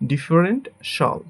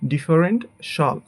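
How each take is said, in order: Both takes have the same delivery.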